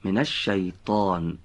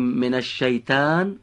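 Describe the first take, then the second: First: «من الشیطان» said slowly and carefully, correct Arabic «ش»; slow correct pronunciation. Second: «من الشیطان» said the wrong way, as the error; wrong pronunciation. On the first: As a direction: model the right «الشیطان», slowly. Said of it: "غلطه". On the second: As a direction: demonstrate the mistaken «الشیطان». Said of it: "اگر بگیم من الشیطان غلطه". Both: Shown as a demonstration.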